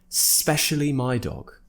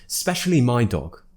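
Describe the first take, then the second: First: It is said fast, with the 'i' dropped. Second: It is said fast, with the 'i' dropped.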